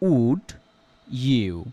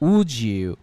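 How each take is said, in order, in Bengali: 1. d আর y sound আলাদা থাকে। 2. d আর y মিশে একটা j সাউন্ড হয়। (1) "উদাহরণ হিসেবে আমরা দেখতে পারি" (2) "এখানে ড সাউন্ডটা উঠে গিয়ে জ সাউন্ডটা তৈরি হবে"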